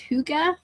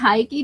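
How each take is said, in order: First: The word sounds like 'hoo-ga', with a g sound. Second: The word sounds like 'Heidi', with a d sound. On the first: The speaker calls it right. "it's hygge" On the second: The speaker calls it wrong. "It's not Heidi"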